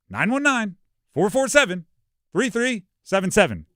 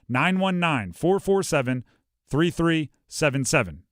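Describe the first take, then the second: First: The number is read with upbeat, lively energy. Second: The number is read in a plain, flat way.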